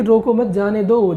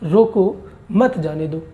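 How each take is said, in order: First: रोको मत said as one unit, then जाने दो; group मत with रोको, leading on to जाने दो; comma after मत. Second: Slow रोको, a break, then मत जाने दो together; comma after रोको. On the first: Teacher reading the let-go version, मत joined to रोको. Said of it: "इसमें कह रहा है कि". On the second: Teacher reading the stop-them version, break after रोको. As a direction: split रोको off and join मत to जाने दो. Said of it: "और यहाँ क्या कह रहा है?". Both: Shown as a demonstration.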